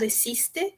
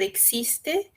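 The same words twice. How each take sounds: First: The x is said with a softened sound. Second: The x is said with a hard sound. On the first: "ou suavizado existe" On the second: "às vezes é pronunciado existe"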